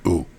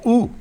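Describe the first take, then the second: First: The ooh sounds put off and dismayed. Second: The ooh sounds impressed and delighted. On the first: The viewer dislikes the house. The speaker calls it wrong. "not ooh" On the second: The viewer likes the house. The speaker calls it right. "you want people to pull up and go"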